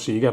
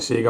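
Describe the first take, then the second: First: The first vowel sounds like 'ee'. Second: The first vowel sounds like 'eh'. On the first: The speaker calls it wrong. "non Siga" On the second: The speaker calls it right. "si dice Sega ovviamente"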